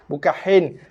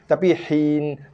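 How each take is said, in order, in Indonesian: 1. Vokalnya terdengar lebih dekat ke bunyi 'e'. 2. Vokalnya terdengar seperti bunyi 'ee' yang jelas. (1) "bukan he" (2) "Ha bagi bawah bunyi hi"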